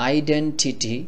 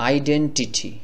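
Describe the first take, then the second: No difference in how they are said.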